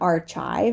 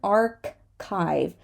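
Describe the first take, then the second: First: The middle consonant is a ch sound. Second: The middle consonant is a k sound. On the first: The speaker calls it wrong. "This is not an archive, as some people like to say" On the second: The speaker calls it right. "This is an archive"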